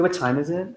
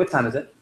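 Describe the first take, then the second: First: The voice rises at the end. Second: The voice falls at the end. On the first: The asker sounds unsure. The speaker calls it wrong. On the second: The asker sounds confident. The speaker calls it right. "That's going down"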